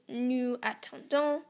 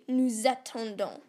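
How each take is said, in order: First: Nous and attendons are said with no z between. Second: A z sound links nous to attendons. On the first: The speaker calls it wrong. "So you would not say" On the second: The speaker calls it right. "you actually say"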